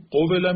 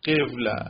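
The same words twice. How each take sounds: First: قوله in three syllables, o then e; original form qovela. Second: قوله in two syllables, e moved onto the first; shifted form qevla. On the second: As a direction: say قوله as qev-la. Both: Shown as a demonstration.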